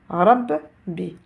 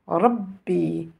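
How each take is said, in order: First: The word is split into two separate syllables. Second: The word is said as one joined unit. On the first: "je vais la lire deux fois, mais avec des voyelles différentes" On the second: "cela va donner Rabbi"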